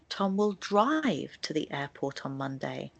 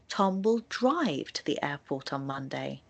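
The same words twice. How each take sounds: First: The word drive carries the main stress. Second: The word drive carries the main stress.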